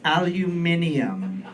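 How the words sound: It is said the British way, with five syllables. The speaker calls it right. "It's aluminium"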